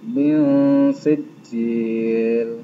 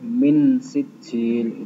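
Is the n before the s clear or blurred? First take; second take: blurred; clear. First: The n sound is blurred into the s. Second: The n sound is pronounced fully and clearly. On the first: The speaker calls it right. "dibaca samar-samar" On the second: The speaker calls it wrong. "tidak boleh min sijil, itu terlalu jelas"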